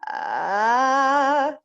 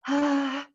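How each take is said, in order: First: The vowel is firm and clear, without breathiness. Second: The vowel is airy and breathy. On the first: The speaker calls it right. "you don't sound airy at all" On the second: The speaker calls it wrong. "You're not going to sound like ah"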